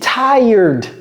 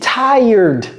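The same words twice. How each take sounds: First: The word is pronounced the American way. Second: The same.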